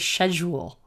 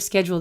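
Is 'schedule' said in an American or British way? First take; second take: British; American. First: It is said with a British pronunciation. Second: It is said with an American pronunciation. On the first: "how the British say it" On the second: "instead of schedule"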